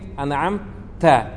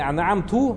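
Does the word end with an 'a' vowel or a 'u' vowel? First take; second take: a; u. First: The word ends with an 'a' vowel. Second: The word ends with a 'u' vowel. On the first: The speaker calls it right. "а как говорит анаам та" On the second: The speaker calls it wrong. "не анаам ту"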